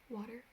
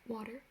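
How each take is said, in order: Both takes have the same delivery.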